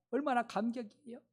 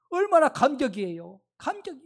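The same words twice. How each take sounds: First: Softer awe. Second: Moved excitement. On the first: Same line, said softly. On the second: Rejoicing over new believers. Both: Acted.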